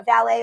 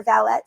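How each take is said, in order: First: "valet" ending in an open AY sound; silent final T. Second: "valette" ending in a crisp ET; sounded final T. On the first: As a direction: say "valet" French-style, with no T heard. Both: Shown as a demonstration. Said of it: "depending on how you pronounce that".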